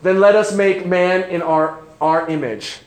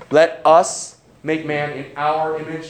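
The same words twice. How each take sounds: First: Said in the usual way. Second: "our" leaned on in "Let us make man in our image"; stress on our. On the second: Shown as a demonstration. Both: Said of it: "You notice the "our"?".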